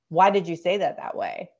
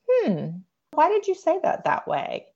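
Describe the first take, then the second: First: It sounds sharp and accusing. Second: It sounds gently curious and open.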